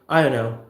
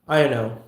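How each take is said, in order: First: The words are squashed into one blurred phrase. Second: The same.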